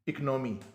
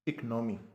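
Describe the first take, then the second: No difference in how they are said.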